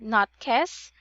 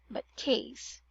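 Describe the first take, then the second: First: The vowel is not a long A sound. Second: The vowel is a long A sound. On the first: The speaker calls it wrong. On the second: The speaker calls it right.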